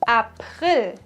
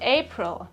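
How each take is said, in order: First: The word is said with a German pronunciation. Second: The word is said with an English pronunciation. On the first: The speaker calls it right. "It is April" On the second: The speaker calls it wrong. "and not April"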